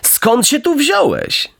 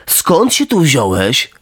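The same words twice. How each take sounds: First: High, slow, syrupy fox greeting; sly fox. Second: Slow, flat parroting of the fox; just repeat what the fox said; echoing cat. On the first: Fox feigning delight at meeting Pinocchio, high and slow. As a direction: greet him with fake warmth. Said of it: "zawołał lis". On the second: Cat dully echoing the fox's greeting, slow. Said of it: "powtórzył kot". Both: Acted.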